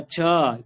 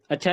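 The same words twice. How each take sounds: First: "अच्छा" with a long drawn-out final vowel; long, falling "अच्छाआ"; extra-long अच्छा. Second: "अच्छा" said short, not stretched; quick, curt little "अच्छा". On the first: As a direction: stretch out the end of "अच्छा", impressed. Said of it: "उसको फिर हम और अच्छा बोलते हैं". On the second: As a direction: keep "अच्छा" brief, closing the chat. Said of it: "छोटा अच्छा लिखेंगे". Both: Shown as a demonstration.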